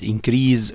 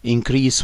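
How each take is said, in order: First: The stress is on the second syllable. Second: The stress is on the first syllable. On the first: It is used as a verb. "increase when it is a verb" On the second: It is used as a noun. "increase when it is noun"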